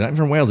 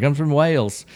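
First: A lightly put-on bad English accent, a little higher; mock English accent to tourists. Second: A lightly put-on bad English accent; half-hearted English accent, a little higher. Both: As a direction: fake a British accent, badly. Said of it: "do my English accent as bad as it was".

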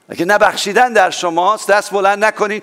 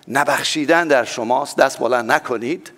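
First: نبخشیدن pushed up and stressed, then دست hit hard; نبخشیدن و دست با تأکید بیشتر; repeated with more force. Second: Said in the usual way. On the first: Shown as a demonstration. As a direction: say it again with nبخشیدن leaned on, a bit higher and firmer.

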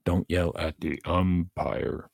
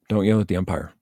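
First: "Don't yell at the umpire," spelled out slowly, "Don't" hit hardest; slow, deliberate "Don't yell at the umpire,"; slow emphatic repeat. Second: Louder, firm "Don't yell at the umpire."; stern warning. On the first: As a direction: lay each word down slowly, leaning on "Don't". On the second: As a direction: bark the rule at the parents. Coach telling parents off. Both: Real, not acted.

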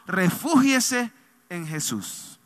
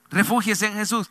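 First: Refúgiese en Jesús drawn out very slowly, each word weighted; refúgiese en Jesús, dicho despacio y con peso; slow emphasis. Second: Said in the usual way. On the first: Shown as a demonstration.

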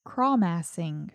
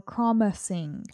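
First: "crawmassing" slowly with a full "mass" in the middle; alternative pronunciation. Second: "crawmassing" with a weak middle, like "craw-muh-sing"; alternative pronunciation. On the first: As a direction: draw out "crawmassing", middle syllable rhyming with "pass". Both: Shown as a demonstration. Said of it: "Or crawmassing".

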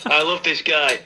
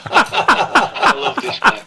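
First: Said in the usual way. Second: High, slow breathy laugh through the words. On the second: Real, not acted. Caller amused by the angry letter, laughing. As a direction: wheeze it out while laughing.

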